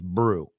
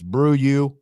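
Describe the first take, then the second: First: The name is said as one syllable. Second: The name is said as two syllables. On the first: "Brian told me it was just Brew" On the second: "If it's Brew you, I can go with that as well"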